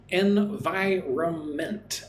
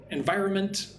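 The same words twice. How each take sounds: First: "environment" drawn out slowly in separate syllables. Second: "environment" at natural speed, skipping the first N of -nment; N barely pronounced. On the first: Teacher showing learners the word environment, sounded out syllable by syllable. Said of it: "it's more like it has four syllables". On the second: Teacher showing how he says environment, N dropped before the M. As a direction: say "environment" running straight to the M. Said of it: "I'm not really pronouncing the N". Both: Shown as a demonstration.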